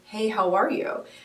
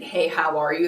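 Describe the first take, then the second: First: It sounds warm and genuinely interested. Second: It sounds quick and absent-minded.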